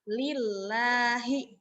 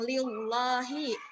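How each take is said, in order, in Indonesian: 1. Bunyi l-nya tipis dan ringan. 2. Bunyi l-nya tebal dan berat. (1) "dia tipis" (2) "mengajar ke tafhim"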